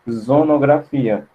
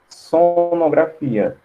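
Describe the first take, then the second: First: The word begins with a voiced Z sound. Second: The word begins with a voiceless S sound. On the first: The speaker calls it wrong. "vai ficar com som de zonografia, porque o S vai estar entre duas vogais" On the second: The speaker calls it right. "não vai ficar com som de sonografia"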